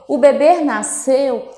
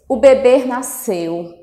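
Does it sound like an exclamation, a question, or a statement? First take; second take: question; statement. First: The pitch rises at the end. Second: The pitch stays level, neither rising nor falling. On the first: The speaker asks whether the baby was born. "eu estou fazendo uma pergunta" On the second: The speaker states that the baby was born. "Eu já venho com uma entonação afirmativa"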